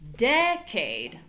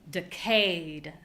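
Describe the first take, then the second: First: The stress is on the first syllable. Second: The stress is on the second syllable.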